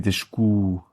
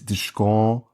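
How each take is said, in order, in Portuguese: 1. A segunda vogal é fechada, como u. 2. A segunda vogal é aberta, como o. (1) "mas é descu" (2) "eu disse descon"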